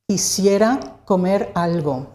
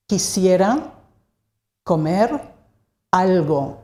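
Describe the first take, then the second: First: Said in the usual way. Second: "Quisiera", "comer", "algo", each set apart by a long pause; word by word. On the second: Shown as a demonstration. Teacher repeats it word by word.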